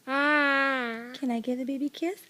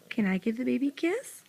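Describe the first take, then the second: First: Drawn out and slow; slow coaxing. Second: Said in the usual way. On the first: Shown as a demonstration. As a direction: ask it slowly, coaxing. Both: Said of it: "Let's see if I can do it".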